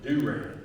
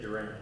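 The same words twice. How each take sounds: First: It is said the way Oklahomans say it. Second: It is said the way an outsider says it. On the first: "He was from Oklahoma, so he called it Durant" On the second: "He didn't say it Durant"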